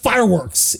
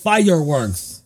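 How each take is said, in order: First: The word is squeezed into two syllables. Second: The word is spread over three syllables. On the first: The speaker calls it wrong. "It's not fireworks" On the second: The speaker calls it right. "Three syllables, not two"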